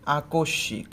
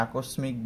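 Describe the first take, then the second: First: আকস্মিক said "akoshshik", no m; doubled sh. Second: আকস্মিক said "akosmik", s and m sounded; mispronounced with sm. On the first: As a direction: double the sh in আকস্মিক: "a-kosh-shik". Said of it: "আমাদের উচ্চারণটা কেমন হবে?". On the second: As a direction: sound the স and ম in আকস্মিক: "a-kos-mik". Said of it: "এটাকে আমরা ভুল উচ্চারণ করি". (আকস্মিক-এ স আর ম স্পষ্ট করে "আকোসমিক") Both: Shown as a demonstration.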